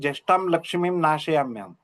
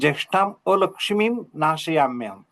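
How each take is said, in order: First: The 'a' is swallowed, giving just lakshmim. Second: A clear 'a' is sounded before lakshmim. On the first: Fortune itself is driven away. The speaker calls it wrong. "ते लक्ष्मीं नाशयाम्यहम् असा उच्चार होऊ शकतो" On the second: The misfortune is driven away. The speaker calls it right. "तिथं ज्येष्ठां अलक्ष्मीं नाशयाम्यहम् असं म्हणा"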